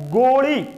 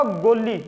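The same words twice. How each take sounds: First: ਗੋਲੀ drawn out, with a curled-back retroflex L. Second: ਗੋਲੀ with a plain dental L, tongue at the teeth. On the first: Teacher showing the dotted word for pill, retroflex L in ਗੋਲੀ. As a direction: say ਗੋਲੀ slowly, tongue folded back to the palate for the L. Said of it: "ਇੱਥੇ ਵੇਖੋ". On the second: Teacher contrasting the word for maidservant, dental L in ਗੋਲੀ. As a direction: say ਗੋਲੀ with an ordinary undotted L, as for maidservant. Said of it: "ਇਹ ਬੋਲਿਆ ਜਾਊਗਾ". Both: Shown as a demonstration.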